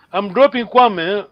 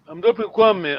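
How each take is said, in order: First: "dropping" hit louder, slowly; teacher punches "dropping"; stress on dropping. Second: "Kwame" pressed at the end, plain pace; teacher lands on "Kwame"; stress on Kwame. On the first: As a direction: lean on "dropping", slow and clear. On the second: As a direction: land the weight on "Kwame". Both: Shown as a demonstration. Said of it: "Remember, these are two questions".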